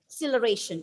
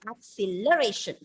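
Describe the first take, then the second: First: The stress is on the first syllable. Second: The stress is on the third syllable. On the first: "if you are stressing on the first syllable" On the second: "if I put the stress on the third syllable"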